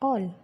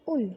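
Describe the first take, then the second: First: The vowel is an open rounded aw sound. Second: The vowel is a close rounded oo sound. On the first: The speaker calls it right. "स्वर के मूल रूप को रखा है और उसके साथ में व्यंजन लगाया हुआ है" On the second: The speaker calls it wrong. "ऊ स्वर के साथ बोलते हैं उल, तो वे भी गलत होता"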